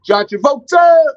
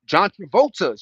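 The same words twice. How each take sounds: First: Very high, loud name call; hyped shout. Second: Said in the usual way. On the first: Shown as a demonstration. Streamer calling out John Travolta, loud high. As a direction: yell his name like a hype man. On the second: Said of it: "Shout out to Grease".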